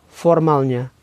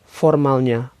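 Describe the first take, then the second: The two takes are said the same way.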